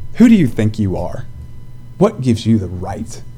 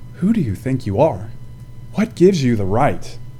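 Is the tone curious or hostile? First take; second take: hostile; curious. First: The tone is hostile and challenging. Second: The tone is open and curious. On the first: The asker is challenging the other's authority. "like this" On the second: The asker genuinely wants to know. "With a curiosity, that's a great question"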